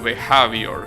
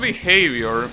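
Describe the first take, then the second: First: The word is said with a changed vowel. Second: The word is said with its usual vowels. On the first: The speaker calls it wrong. "That's a vowel mispronunciation" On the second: The speaker calls it right. "the word behavior is pronounced like that"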